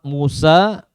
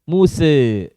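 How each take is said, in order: First: The final vowel is a fully open a. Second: The final vowel lies between a and e. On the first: "Musa dengan al-fath" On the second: "Muse dengan taklil"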